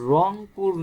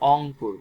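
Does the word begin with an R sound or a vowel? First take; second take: R sound; vowel. First: The word begins with an R sound. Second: The word begins with a vowel sound. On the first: "রংপুর না বলে" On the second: "রংপুরের ভাষায় ... অংপুর বলি"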